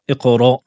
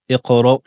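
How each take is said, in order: The two takes are said the same way.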